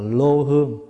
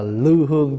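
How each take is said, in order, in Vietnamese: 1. Từ thứ nhất đọc là lô. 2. Từ thứ nhất đọc là lưu. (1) "hồi xưa đọc là" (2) "bây giờ mình đọc là"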